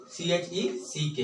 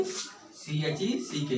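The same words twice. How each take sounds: First: Said in the usual way. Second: "सी एच ई सी के" spelt very slowly and softer; letter by letter, slow and soft; slow spelling. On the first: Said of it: "America में क्या बोलेंगे". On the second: Shown as a demonstration. Teacher to class, spelling the American word slowly. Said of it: "क्या बोलेंगे".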